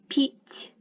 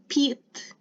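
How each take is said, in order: First: The final t is soft, palatalized. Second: The final t is hard, not softened. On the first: The speaker calls it right. "It is пить" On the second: The speaker calls it wrong. "It is not пит"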